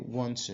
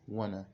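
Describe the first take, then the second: First: Both words are said fully and separately. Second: The two words are reduced into one word. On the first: "instead of you to say want to" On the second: "you can say wanna"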